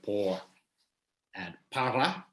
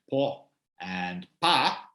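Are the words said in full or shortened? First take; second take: full; shortened. First: The r sounds are kept and para is said fully. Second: The r sounds are dropped and para is cut short. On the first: This is the standard form. "instead of por and para" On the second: This is how many Chileans say it. "a lot of Chileans don't pronounce the R in those words, they say por and pa"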